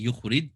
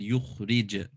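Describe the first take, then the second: First: The final j stops flat without a bounce. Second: The final j bounces with an echoing release. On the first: The speaker calls it wrong. "I didn't say yukhrij" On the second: The speaker calls it right. "why did I bounce on that jim?"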